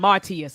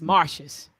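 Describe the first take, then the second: First: The T and S are said separately. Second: The T and S run together. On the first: The speaker calls it wrong. "so it's not" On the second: The speaker calls it right.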